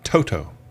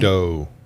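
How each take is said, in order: First: The second T is a crisp, clear T. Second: The second T sounds soft, like a D.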